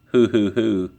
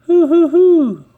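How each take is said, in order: First: Said in the usual way. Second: High, loud bouncy hoo-hoo-hoo; Tigger's hoot. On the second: Acted. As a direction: whoop it out like a bouncing tiger. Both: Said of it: "Tigger always says".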